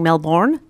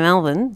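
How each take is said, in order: First: The second syllable is fully pronounced. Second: The second syllable is swallowed and reduced. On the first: The speaker sounds like a newcomer. The speaker calls it wrong. "you just got to stop saying Melbourne" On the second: The speaker sounds like a local. The speaker calls it right. "just swallow it a little bit. just get a bit lazy and just sort of drop the jaw"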